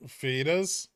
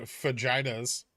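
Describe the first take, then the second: First: Said in the usual way. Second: "fajitas" with a hard j and long i, fuh-JY-tuz; Wisconsin mispronunciation of fajitas. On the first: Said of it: "instead of fajitas". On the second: Retold or imitated. Recalling how a Wisconsin girl said it, "fajitas" as fuh-JY-tuz. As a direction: say "fajitas" as fuh-JY-tuz, middle rhyming with eye. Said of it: "a girl from Wisconsin who would say".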